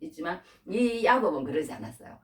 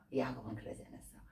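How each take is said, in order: First: Said in the usual way. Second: Quiet repeat. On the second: Real, not acted.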